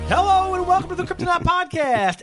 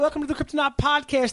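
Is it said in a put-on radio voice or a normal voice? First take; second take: radio voice; normal voice. First: It is said in a put-on radio DJ voice. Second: It is said in his normal speaking voice.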